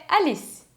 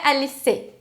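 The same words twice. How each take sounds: First: ALICE à francesa, corta no som de S; E final mudo. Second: ALICE terminando em CÊ tônico; E final pronunciado. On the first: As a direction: diga ALICE como "alis", mais agudo. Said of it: "nunca vai ser pronunciado". (ALICE sem vogal no fim) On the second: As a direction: diga ALICE errado, acentuando o E final. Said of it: "Não é Alice". (ALICE como "alissê") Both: Shown as a demonstration.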